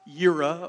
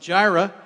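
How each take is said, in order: First: The word begins with a Y sound. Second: The word begins with a J sound. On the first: The speaker calls it wrong. "It's not Yira or anything else" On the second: The speaker calls it right. "that's how you pronounce it"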